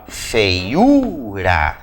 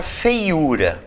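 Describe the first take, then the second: First: Feiura slowly as fei-U-ra, the U stretched; drawn-out syllables. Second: Said in the usual way. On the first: Shown as a demonstration. Teacher showing students where feiura is stressed, syllable by syllable. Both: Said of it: "olha aqui, ó".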